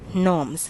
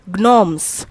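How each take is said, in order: First: The word begins with no G sound. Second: The word begins with a pronounced G sound. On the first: The speaker calls it right. "your G is silent" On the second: The speaker calls it wrong. "we should not pronounce it as gnomes"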